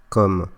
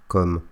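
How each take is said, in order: No difference in how they are said.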